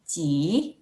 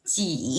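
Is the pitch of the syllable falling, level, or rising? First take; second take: rising; falling. First: The pitch rises through the syllable. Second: The pitch goes down low in the syllable. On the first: "Nada dua, naik" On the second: "Nada tiga, turun ya"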